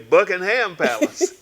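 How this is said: It is said the Atlanta way.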